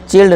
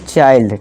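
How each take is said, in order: First: The vowel is short, like 'i' in 'chill'. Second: The vowel is long, like 'eye'. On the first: The speaker calls it wrong. "चिल्ड नहीं" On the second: The speaker calls it right.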